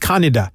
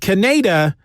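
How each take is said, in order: First: The name is said with Japanese pronunciation. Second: The name is said with English pronunciation.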